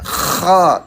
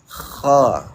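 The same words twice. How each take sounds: First: The throat sound is forced and overly loud. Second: The throat sound is a gentle soft rasp. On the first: The speaker calls it wrong. "Kalau terlalu keras berlebihan ya. Kho terlalu berlebihan" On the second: The speaker calls it right. "ngorok halus atau berdeham"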